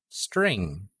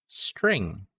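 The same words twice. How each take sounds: The two takes are said the same way.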